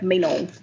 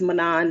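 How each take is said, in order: First: The name is said with a French pronunciation. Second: The name is said with an American pronunciation. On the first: The speaker calls it right. "I think if you're French, it's like Menon" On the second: The speaker calls it wrong. "Our American brain is Manon"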